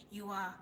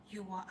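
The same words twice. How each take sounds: The two takes are said the same way.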